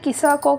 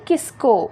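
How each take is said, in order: First: An extra vowel is said between s and k. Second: The s and k are said together, no vowel. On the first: The speaker calls it wrong. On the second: The speaker calls it right.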